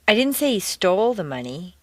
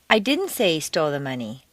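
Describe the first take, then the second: First: The stress is on the word stole. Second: The stress is on the word didn't.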